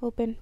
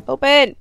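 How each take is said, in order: First: Said in the usual way. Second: Open! shouted louder and sharper; loud command. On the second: Real, not acted. Gamer yelling Open! at a door, loud impatient command.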